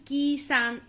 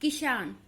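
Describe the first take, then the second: First: The first vowel is drawn out long. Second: The first vowel is said short and quick. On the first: The speaker calls it wrong. "ना कि किसान, ऐसे तो पढ़ते नहीं" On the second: The speaker calls it right. "यह की जल्दी प्रोनाउंस हुआ तो छोटा ही लगेगा"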